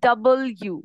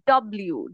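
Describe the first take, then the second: First: The name is said fully as 'double you'. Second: The name is squeezed into a short 'dublew'. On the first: The speaker calls it right. "ডাবল ইউ, দেখো দুইটা ইউ এর মতো" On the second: The speaker calls it wrong. "ডব্লিউ না"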